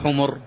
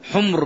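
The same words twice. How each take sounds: First: A vowel follows the m sound. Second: No vowel follows the m sound. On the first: It means donkeys. The speaker calls it wrong. "لا تقول حمر" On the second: It means red ones. The speaker calls it right. "حمر بسكون الميم"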